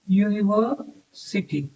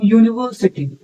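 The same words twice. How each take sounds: First: university slowly, split by a pause before city; slow sounding-out. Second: Said in the usual way. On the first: Shown as a demonstration. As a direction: softly sound out university in two slow parts. (University को धीरे-धीरे, तोड़कर बोलते हुए) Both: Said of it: "university का sound क्या आ रहा है".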